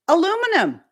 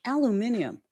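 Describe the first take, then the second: First: Aluminum with four syllables, stress on LU; American pronunciation. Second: Aluminium with five syllables, stress on MIN; British pronunciation. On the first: Shown as a demonstration. Realizing what was meant, aluminum in the American form. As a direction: say aluminum the American way, a-LOO-mi-num, high and punched. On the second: Retold or imitated. Puzzling over the British word, aluminium with its extra syllable. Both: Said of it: "that's how we pronounce it".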